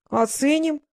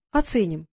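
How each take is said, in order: First: High, incredulous question; disbelieving, voice pitched up; astonished echo. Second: Said in the usual way. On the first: A narrator's reading. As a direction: throw the word back in amazement. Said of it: "изумился Фэш".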